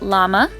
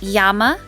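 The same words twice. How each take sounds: First: The word begins with an L sound. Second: The word begins with a Y sound. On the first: The speaker calls it wrong. "not llama" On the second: The speaker calls it right. "the double L is pronounced with a Y sound"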